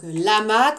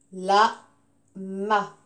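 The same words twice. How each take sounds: First: Said in the usual way. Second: "Lama" in two separate beats, la... ma; split into syllables. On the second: Shown as a demonstration. Teacher counting syllables for the class, "Lama" syllable by syllable. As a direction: say "Lama" low, with a long gap between syllables. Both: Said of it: "combien de syllabes?".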